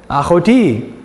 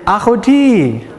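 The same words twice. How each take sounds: First: Achoti said ah-kho-TEE, throaty kh, plain teaching voice; Hebrew achoti. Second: Achoti stretched out slowly, ah-kho-TEE, addressed to a woman; Hebrew achoti to a sister. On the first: Teacher answers his own question to the class, saying Achoti plainly. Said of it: "So how would you say my achot". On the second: Teacher models greeting a sister, Achoti slow and addressed. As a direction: say Achoti slowly to a gal in the room. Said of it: "look at a gal in the room and say". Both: Shown as a demonstration.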